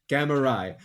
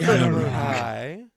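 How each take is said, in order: First: It is said in a plain, ordinary voice. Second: It is said in a moaning, orgasm-like voice.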